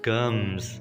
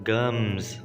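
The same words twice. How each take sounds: The two takes are said the same way.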